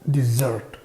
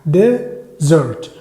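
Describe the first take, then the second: First: The stress is on the second syllable. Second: The stress is on the first syllable. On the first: It means a sweet dish after a meal. "بيكون الاسترس او الشد على السيلابل الثاني" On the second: It means a desert, a dry sandy place. "بيكون الاسترس او الحاجة كده قريبة من الشدة على المقطع الأولاني"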